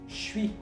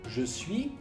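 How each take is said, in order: First: Je is reduced to a ch sound. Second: Je is said in full.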